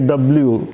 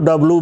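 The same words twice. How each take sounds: First: The letter name is said fully and carefully. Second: The letter name is said in a shortened form. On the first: "खूब अच्छा से उच्चारण करिए" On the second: "और हम तो डब्ल्यू भी बोलते हैं"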